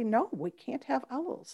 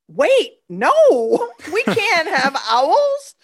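First: It is said quietly, in a stoic way. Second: It is said in an animated, agitated way.

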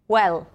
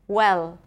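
The two takes are said the same way.

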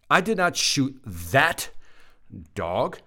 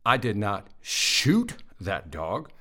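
First: The stress is on the word 'that'. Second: The stress is on the word 'shoot'. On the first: The speaker shot a different dog. "I shot the other one" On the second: The speaker did something else to the dog. "I threw a rock at it, but I didn't shoot it"

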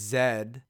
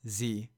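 First: The letter is said as zed, Canadian style. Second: The letter is said as zee, American style.

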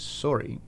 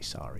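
First: The word is said with a Canadian accent. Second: The word is said with an American accent. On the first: The speaker is from Canada. The speaker calls it wrong. "that is a Canadian way of saying the word sorry" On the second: The speaker is from the United States. The speaker calls it right. "You gotta say sorry"

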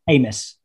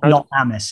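First: The first vowel is a hard A sound. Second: The first vowel is not a hard A. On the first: The speaker calls it right. "It's like a hard A" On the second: The speaker calls it wrong. "not Amos"

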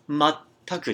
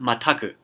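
First: The consonant before the final syllable is doubled. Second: The consonant before the final syllable is single. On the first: The speaker calls it right. "make sure to get that chitsaitsu in there. It's Mattaku" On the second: The speaker calls it wrong. "not Mattaku"

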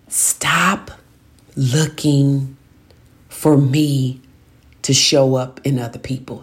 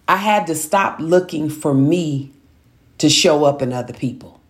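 First: It is said slowly and deliberately. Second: It is said at a normal pace.

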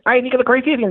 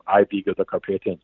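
First: The line is spoken at about double speed. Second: The line is spoken at an ordinary pace. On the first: "I had to kind of like mimic it like that" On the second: "shooting at normal speed where you just had this voice going"

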